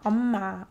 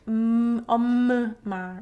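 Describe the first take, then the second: First: The m sound is kept short and clean. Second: The m sound is held out long. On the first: The speaker calls it right. "your lips should be pressing each other" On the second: The speaker calls it wrong. "you don't extend it to omma"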